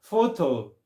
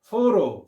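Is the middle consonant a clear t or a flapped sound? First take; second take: clear t; flapped. First: The middle consonant is a clear t sound. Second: The middle consonant is a soft flapped sound.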